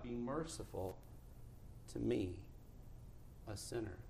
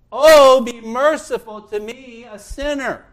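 First: Very soft, low, humble prayer; hushed plea. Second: Loud, high plea for mercy; crying out. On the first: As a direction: murmur it humbly with pauses between phrases. Hushed retelling of the publican's plea. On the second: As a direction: cry out as a desperate sinner begging God. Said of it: "He cried out and said". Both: Acted.

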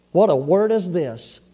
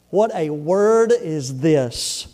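First: Said in the usual way. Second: Very slow, lower delivery; drawn-out, pondering emphasis; weighty repetition. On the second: Acted. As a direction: linger over every word. Repeats the key verse for weight.

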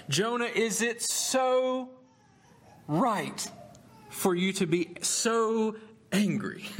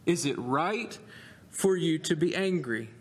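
First: Both "so" drawn out, slow and high; slow pointed question with "so" stretched and higher; stress on so. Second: Said in the usual way. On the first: Shown as a demonstration. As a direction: lean hard on each "so", pleading.

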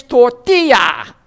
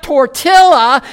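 First: Tortilla as tor-TEE-ya, double l as y; Spanish tortilla. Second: Tortilla with a hard l, tor-TILL-a; mock anglicised tortilla; wrong tortilla. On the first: Shown as a demonstration. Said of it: "it's tortilla". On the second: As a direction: say tortilla as spelled with the l. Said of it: "It's not tortilla".

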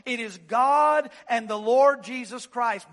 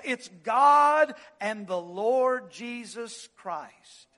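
First: Said in the usual way. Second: Slow, punched God and the Lord Jesus Christ; emphatic repeat. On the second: Shown as a demonstration. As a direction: hammer each word of It's God and the Lord Jesus Christ.

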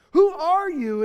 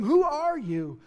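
First: Loud, high challenge of "Who are you?"; demanding crowd. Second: Said in the usual way. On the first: Acted. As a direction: press him hard for an answer.

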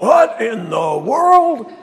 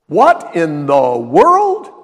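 First: Higher, loud, slow mock cry of dismay; shrill mock outrage. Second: Plain. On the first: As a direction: stretch it out in mock horror. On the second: Retold or imitated. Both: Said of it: "More like".

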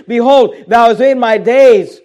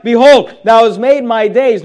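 First: "Behold, thou hast made my days" read slowly, each word weighed; slow down and weigh every word; slow emphatic reread. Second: Said in the usual way. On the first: Shown as a demonstration.

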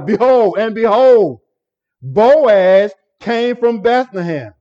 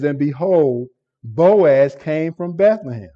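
First: "Behold" and "behold" each punched higher and louder, slow on "Boaz came from Bethlehem"; emphatic surprise. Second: Said in the usual way. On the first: Shown as a demonstration. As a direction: proclaim "behold" like a sudden surprise, raised and loud, then slow down. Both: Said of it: "It's an emphatic statement of surprise".

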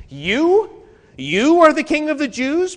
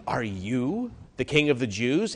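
First: High, loud disbelieving question; incredulous question. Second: Said in the usual way. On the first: Shown as a demonstration. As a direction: ask it as if you cannot believe it. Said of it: "The sense is". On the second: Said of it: "the "you" is emphatic".

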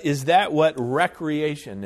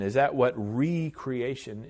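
First: "recreation" said as WRECK-ree-AY-shun; short REK opening on "recreation", asked louder; everyday recreation pronunciation. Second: "recreation" said as REE-cree-AY-shun; re-creation pronunciation. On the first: Preacher questioning the fun-and-games sense, everyday pronunciation. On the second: Preacher correcting the word in his question, re-creation pronunciation. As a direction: lean on a long REE in "recreation". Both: Shown as a demonstration. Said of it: "we should pronounce it that way".

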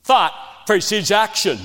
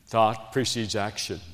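First: Higher and louder, driven home; "Thought" hit hard on a loud second take; emphatic repeat. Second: Softer and lower, said almost to himself; a soft first take of "Thought precedes action."; quiet statement. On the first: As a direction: preach "Thought precedes action." out higher and louder. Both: Shown as a demonstration. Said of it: "You hear me?".

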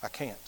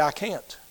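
First: Near-silent, much lower repeat of the refusal; barely audible refusal. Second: Much softer, lower helpless refusal; quiet refusal. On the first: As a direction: let it die on the breath. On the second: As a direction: let the words fall away, defeated. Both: Retold or imitated. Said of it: "And Morgan stand back and say".

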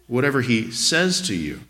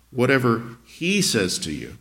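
First: "says" singled out with emphasis; stress on SAYS. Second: "he" stretched and set apart in a slow reading; slow down and lean on "he"; stress on HE. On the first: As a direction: lean hard on the word "says". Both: Shown as a demonstration. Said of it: "Emphasize different words in the text".

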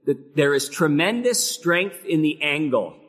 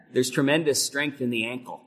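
First: Said in the usual way. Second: "ankle" with a hard k sound, the way the Dutch builder said angle. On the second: Retold or imitated. Preacher recalling the old builder's saying, "ankle" said with a k. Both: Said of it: "He said it more like ankle".

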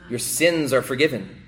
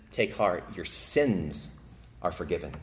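First: Said in the usual way. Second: Almost breathe the forgiveness; gentle, fading words of Jesus; hushed pronouncement. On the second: Acted. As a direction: lower and much softer, tender absolution.

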